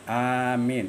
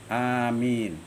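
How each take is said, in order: No difference in how they are said.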